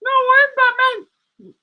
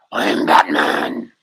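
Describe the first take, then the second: First: Squeaky high insistent Batman; high puppet Batman. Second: Batman growl, pitched way down and slow; gravelly Batman impression. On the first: Acted. Puppet insisting it is the real Batman, high. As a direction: counter him in the high toy voice, slowly. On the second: Claiming the Batman voice, deep and slow. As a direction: drop low and drag it like Batman. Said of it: "You hear the voice and all".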